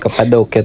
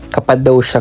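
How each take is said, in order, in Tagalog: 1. Binibigkas ang pangalan sa paraang lokal. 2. Binibigkas ang pangalan sa paraang Ingles. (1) "sabi ng mga local, Cappadocia talaga yung pronunciation" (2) "Cappadocia kung English"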